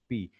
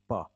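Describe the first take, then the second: First: It is said as the letter name 'pee'. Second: It is said as the bare sound 'pa'. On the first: It names the written letter. "ये पी है, ... जो पुरानी इसकी pronunciation है" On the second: It stands for the speech sound itself. "Linguistics point of view से पढ़ते हैं इसको हम पा कहते हैं"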